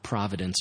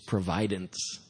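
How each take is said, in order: First: The word is said the ordinary way. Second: The word is said differently, bringing out 'provide'. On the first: "sometimes we throw that word providence around" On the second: "if we pronounced it a little more differently"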